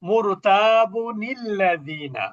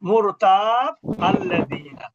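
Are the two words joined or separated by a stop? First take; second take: joined; stopped. First: The words are joined with a linking nun. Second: The words are separated by a stop. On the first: "এইটা হলো মিলিয়ে পড়তেছেন, নুনে কুতনি সহ পড়বেন" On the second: "যখন নুনে কুতনি পড়বেন না তখন থামতে হবে"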